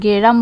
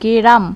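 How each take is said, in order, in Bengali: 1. g ও r-এর মাঝে একটি স্বরধ্বনি বসে। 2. g ও r-এর মাঝে একটি স্বরধ্বনি বসে।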